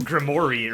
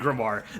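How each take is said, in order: First: The name ends with an 'ory' sound. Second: The name ends with a 'wahr' sound. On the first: This is how the show says the name. The speaker calls it wrong. "They pronounce it in the weirdest fucking way" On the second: This is how the name should be said. The speaker calls it right. "I'm pretty sure it's supposed to be"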